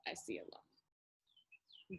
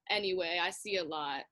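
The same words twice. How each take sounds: First: Whispered low and slow; slow whisper echo. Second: Said in the usual way. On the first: Acted. Mascot repeats his line as a slow whisper. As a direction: let it hang in a slow whisper.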